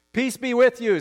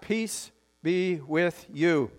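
First: Said in the usual way. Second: Each word spaced out at half speed; slow, drawn-out blessing. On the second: Real, not acted. Pastor modelling the greeting for the congregation, slow and deliberate.

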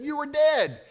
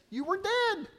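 First: Higher and louder, an emphatic mock cry; louder disbelief. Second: High, mock-startled cry of disbelief; a lightly voiced heroine gasping it out high; shocked disbelief. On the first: Heroine insisting to her love, louder mock cry. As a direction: lean into the words, louder this time. Woman's shocked cry to him. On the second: Heroine stunned to see her love alive, high cry.

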